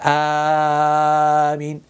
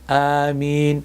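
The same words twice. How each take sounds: First: The word is stretched unevenly. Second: The word is said evenly balanced. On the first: The speaker calls it wrong. "These are two not correct ways" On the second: The speaker calls it right. "It has to be balanced in the word as well"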